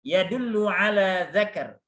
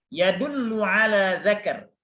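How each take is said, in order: No difference in how they are said.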